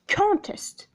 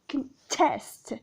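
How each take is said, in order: First: The stress is on the first syllable. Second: The stress is on the second syllable. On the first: It is a noun meaning a competition. "If you stress the first syllable, then it is a noun" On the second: It is a verb meaning to oppose. "if you stress the second syllable of the same word"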